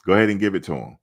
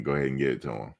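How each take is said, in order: First: Louder, more insistent; emphatic. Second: Said in the usual way. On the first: Real, not acted. Fan insisting the Heisman go to Shedeur, louder. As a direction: push it harder the second time.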